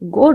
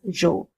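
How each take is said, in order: First: The syllable begins with a hard g sound. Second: The syllable begins with a j sound. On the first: The speaker calls it right. "G O is pronounced as go, just like we do in English" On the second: The speaker calls it wrong. "pronouncing it as jo, but it is wrong"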